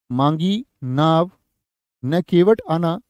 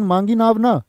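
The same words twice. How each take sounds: First: Very slow मांगी नाव, break, then न केवट आना; pause after नाव. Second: ना joined to मांगी नाव, pitched higher, falling at the end; group मांगी नाव ना as one raised phrase; break after ना. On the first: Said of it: "यहाँ केवट ना आने की बात". ("नाव" के बाद विराम, बहुत धीमे) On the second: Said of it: "नाव ना मांगने की बात है". ("ना" को "मांगी नाव" से जोड़कर) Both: Shown as a demonstration.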